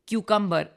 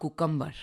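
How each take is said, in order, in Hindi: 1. यह शब्द 'kyoo' ध्वनि से शुरू होता है। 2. यह शब्द सादी 'koo' ध्वनि से शुरू होता है। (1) "बहुत सारे प्रोनाउंसिएशन सीखे, जैसे क्यूकम्बर" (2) "ये ऐसे नहीं होता है"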